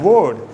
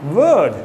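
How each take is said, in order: First: The vowel is an or sound. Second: The vowel is an er sound. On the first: The speaker calls it wrong. "It is not O R" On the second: The speaker calls it right. "it is pronounced as E R"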